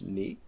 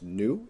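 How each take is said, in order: First: The letter name is said like 'nee'. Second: The letter name is said like 'noo'. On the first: The speaker calls it right. "it is pronounced ni" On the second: The speaker calls it wrong. "It is not pronounced nu"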